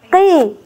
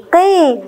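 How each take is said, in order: The two takes are said the same way.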